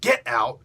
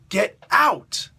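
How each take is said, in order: First: It is said plainly without emphasis. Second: It is said forcefully with strong emphasis. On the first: "Not just get out" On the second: "like that. We, we emphasize certain words"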